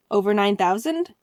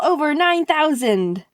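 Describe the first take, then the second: First: Said in the usual way. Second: "over nine thousand" said slow and high, stretched out; dramatic slogan. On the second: Shown as a demonstration. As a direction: pitch "over nine thousand" as a big hype line. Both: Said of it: "What if for the Dragon Ball one you wrote".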